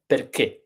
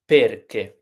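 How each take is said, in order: First: "perché" as per-KE, stress on the end; short per, strong final ché in "perché"; stress on last syllable. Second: "perché" mispronounced as PER-ke; stress on first syllable. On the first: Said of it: "the accents break the pattern". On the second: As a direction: hit PER in "perché", light final ke. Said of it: "instead of perché". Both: Shown as a demonstration.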